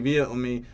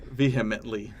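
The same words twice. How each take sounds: First: The word is said quickly and stumbled over. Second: The word is said slowly and carefully. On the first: The speaker calls it wrong. "I can't pronounce that word" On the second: The speaker calls it right. "There we go. Once I speak slower"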